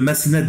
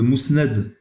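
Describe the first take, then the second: First: The first vowel sounds like 'ah'. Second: The first vowel sounds like 'oo'. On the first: The speaker calls it wrong. "il dit le masnad de l'imam Ahmed" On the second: The speaker calls it right. "au lieu de dire le, le mousnad de l'imam Ahmed"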